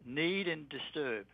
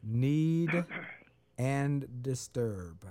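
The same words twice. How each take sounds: First: Slow, spelled-out dictation; dictating slowly. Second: Very slow, lower repeat. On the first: Guest dictating words to listeners, slowly. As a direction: give each word slowly so it can be written. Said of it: "write in". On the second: Host repeating dictated words back slowly. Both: Shown as a demonstration.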